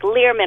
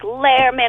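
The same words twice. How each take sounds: First: The first syllable does not sound like lair. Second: The first syllable sounds like lair. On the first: The speaker calls it wrong. "She's like Learman" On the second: The speaker calls it right. "I'm like Learman. ... say Lair Learman"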